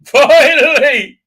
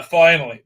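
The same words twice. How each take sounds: First: Finally, stretched out high and very loud; exaggerated FINALLY. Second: Said in the usual way. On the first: Real, not acted. Storyteller reaching the rescue, "finally" stretched high and loud. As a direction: belt out a long, drawn-out "finally". Repeats word with exaggerated relief.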